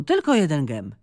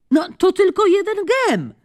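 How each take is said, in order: First: Said in the usual way. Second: High, louder call, falling on gem. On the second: Acted. Charmaine calls to tired Joanna to play one more game, high coaxing call. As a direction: coax her from across the court. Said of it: "zawołała Charmaine".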